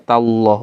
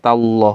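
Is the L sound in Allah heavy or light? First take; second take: heavy; heavy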